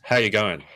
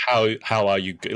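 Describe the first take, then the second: First: "How you going" mumbled through still lips, lower; unmoving lips. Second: Imitating "how are you go-" with separate, careful words; too fully pronounced. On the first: Shown as a demonstration. Coach demonstrates for the pupil, lips not moving. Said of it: "you don't move your lips". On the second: Coach mimics the pupil's mistake, over-pronounced words. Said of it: "No, you're still saying".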